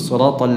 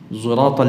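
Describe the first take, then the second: First: The first consonant is a pure emphatic s. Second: The first consonant is mixed with a z sound. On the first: This follows the standard transmitted reading tradition. "dengan shad murni" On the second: This follows one transmitted reading tradition. "seperti dalam riwayat Khalaf an Hamzah"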